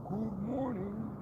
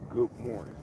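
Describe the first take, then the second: First: Slow, high stretched good morning; drawn-out greeting. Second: Said in the usual way. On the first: Real, not acted. Greeting his viewers with a stretched-out good morning. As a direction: sing it out long and lazy.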